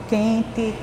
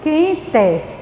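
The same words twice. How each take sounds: First: The final vowel sounds like an i. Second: The final vowel sounds like a closed e. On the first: The speaker calls it right. "A gente fala quente" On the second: The speaker calls it wrong. "A gente não costuma falar dessa maneira"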